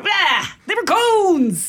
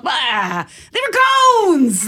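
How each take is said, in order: First: Drawn-out playful exclamation; yelled catchphrase. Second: Loud, drawn-out playful yell; yelled catchphrase. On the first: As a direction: cry it out slowly, half-laughing. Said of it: "goes wrong and I screw up". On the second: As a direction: yell it like a silly inside joke. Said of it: "one of us will just yell". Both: Retold or imitated.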